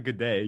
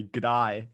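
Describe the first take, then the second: First: "good day." with a plain "ay" in "day"; standard vowel. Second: "Good eye." with "day" turned into "eye"; Australian vowel. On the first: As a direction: say "good day." the ordinary American way. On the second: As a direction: say "Good eye." for an Aussie g'day. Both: Shown as a demonstration. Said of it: "No, not".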